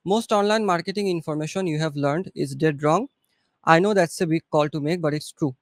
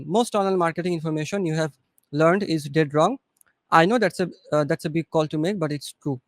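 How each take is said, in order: First: Slow English read. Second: Slow and calm. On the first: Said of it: "বাংলাদেশের accent আমি আপনাকে দেখাচ্ছি". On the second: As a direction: read it slowly and calmly, no rush. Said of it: "আস্তে, আস্তে বলেন". (আস্তে, ঠান্ডাভাবে বলা) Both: Shown as a demonstration.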